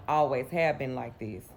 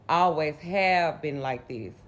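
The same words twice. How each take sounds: First: Said in the usual way. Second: Slow stress on "Always have"; emphatic repeat. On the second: Real, not acted. Telling of sister and grandma's bond, slow emphasis on "Always have". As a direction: draw out "Always have" with weight.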